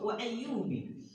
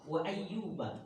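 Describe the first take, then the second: First: The name ends with an 'i' vowel. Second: The name ends with an 'a' vowel. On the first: "dengan kasroh" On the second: "diawali dengan kata fathah"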